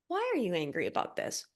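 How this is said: It sounds curious and accepting.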